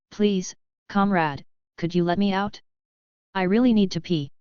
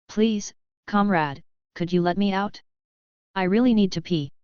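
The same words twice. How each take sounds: First: Put-on lightly Russian-accented pleading dog. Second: Put-on Russian accent. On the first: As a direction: ask politely with a hint of Russian accent. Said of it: "in a female voice with a distinctly Russian accent". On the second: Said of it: "a Russian accented plea". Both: A narrator's reading.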